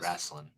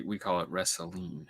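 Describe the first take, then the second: First: "Wrestling" said softly with a Southern lilt; a Southern "wrestling" trailing off; Southern accent. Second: A light Southern drawl on "wrestling"; Southern accent. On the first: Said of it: "your Southern accent". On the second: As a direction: say "we call it wrestling" as a Texan. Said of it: "next time you're doing your Southern accent". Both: Shown as a demonstration.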